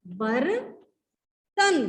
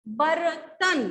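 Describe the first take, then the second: First: बर्तन drawn out very slowly; slow sounded-out word. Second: Said in the usual way. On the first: Shown as a demonstration. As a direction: stretch बर्तन so each sound is heard. (बर्तन बहुत धीरे खींचकर) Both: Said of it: "sound पे जाएंगे".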